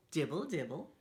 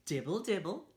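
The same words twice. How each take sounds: The two takes are said the same way.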